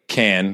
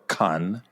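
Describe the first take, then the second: First: The vowel sounds like 'can'. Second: The vowel sounds like 'con'. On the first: This is how most people say it. "because everybody says it that way" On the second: This is the correct pronunciation. "or con if you're going to say it correctly"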